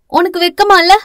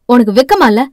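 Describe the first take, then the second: First: Put-on high, defiant girl's comeback; cheeky high-voiced challenge; disrespectful retort. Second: Loud, heated shaming question; stern, loud reproach; angry yelling. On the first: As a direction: throw the question back, high-pitched. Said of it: "பிரதீப்பை மரியாதை இல்லாமல் பேச". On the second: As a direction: demand it forcefully, voice falling at the end. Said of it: "என கத்த". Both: A narrator's reading.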